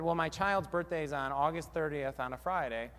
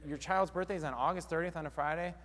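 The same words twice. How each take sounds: First: Said in the usual way. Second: "Friday?" rising as an echoed question; echoing question. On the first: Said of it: "And if they said". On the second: Shown as a demonstration. Receptionist parroting the client's words back, rising echo question. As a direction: repeat their words back, lifting at the end on "Friday?". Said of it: "and you say".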